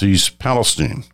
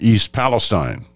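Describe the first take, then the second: First: The name is said as the locals say it. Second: The name is said as outsiders would read it. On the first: The speaker calls it right. "is the way they pronounce it there" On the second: The speaker calls it wrong. "To most of us looking at it the first time, it seems like"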